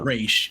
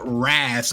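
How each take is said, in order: First: The name ends with an sh sound. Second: The name ends with a z sound. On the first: The speaker calls it right. "but it was really Raish" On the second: The speaker calls it wrong. "They pronounced it Raz Al Ghul"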